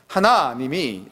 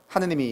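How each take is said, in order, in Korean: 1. 가운데 모음은 'a'입니다. 조심스럽게 발음합니다. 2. 가운데 모음은 'eu'입니다. 빠르게 발음합니다. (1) "하나님이 이렇게 이제 제가 아, 연습을 하는데도" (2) "빨리 하다 보면 하느님이 이렇게 되거든요"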